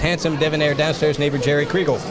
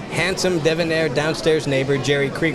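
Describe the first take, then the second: First: The phrase is said very quickly. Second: The phrase is said more slowly. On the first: "he says it real fast" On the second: "slow it down"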